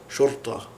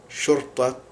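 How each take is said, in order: Both takes have the same delivery.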